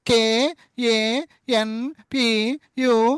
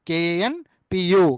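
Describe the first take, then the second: First: Each letter is said separately with pauses between. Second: The letters are grouped into two syllable chunks. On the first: The speaker calls it wrong. "America London అంటే ఒప్పుకోరు" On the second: The speaker calls it right. "కాన్ పు, KAN PU కాన్పు అని చెప్పాలి"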